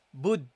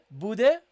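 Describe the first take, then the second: First: The final d stops flat without a bounce. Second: The final d is released with a bounce. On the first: The speaker calls it wrong. "You don't say bud" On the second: The speaker calls it right. "have a qalqala, a bounce"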